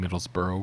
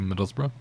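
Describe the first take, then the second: First: It is pronounced the American way. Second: It is pronounced the local British way. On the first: "which we have a Middlesbrough in Kentucky" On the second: "like saying Middlesbrough"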